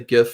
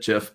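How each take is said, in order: First: The word begins with a hard G sound. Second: The word begins with a soft J sound. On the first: "I'll say GIF for for those of you that get upset with me" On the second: "I'm team peanut butter. I've always said Jif"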